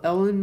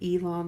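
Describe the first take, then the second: First: The name sounds like the name 'Ellen'. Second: The name ends with a sound like 'lawn'. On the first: "it does look like Ellen as well" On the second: "E like Elon as in a lawn"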